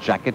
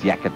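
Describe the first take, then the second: First: The word begins with a J sound. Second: The word begins with a Y sound. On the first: The speaker calls it wrong. "It's not jacket" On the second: The speaker calls it right. "it's yacket"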